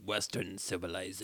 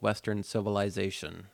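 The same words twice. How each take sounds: First: It is said in a Bane impression voice. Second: It is said in his normal reading voice.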